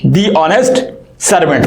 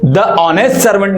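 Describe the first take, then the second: First: 'The' is said with a long 'ee' vowel. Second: 'The' is said with a short 'uh' vowel. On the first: The speaker calls it right. "तो इसको पढ़ेंगे दी honest servant" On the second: The speaker calls it wrong. "द honest servant नहीं पढ़ेंगे"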